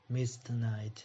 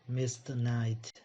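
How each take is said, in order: No difference in how they are said.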